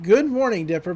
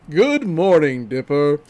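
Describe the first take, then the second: First: It is said in an ordinary voice. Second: It is said in a very deep voice.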